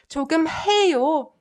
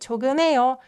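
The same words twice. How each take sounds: First: The h sound in the middle is clearly pronounced. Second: The h sound in the middle is barely heard. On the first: "you don't have to say 조금해요" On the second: "follow the natural phonetic phenomenon and just say 조금해요"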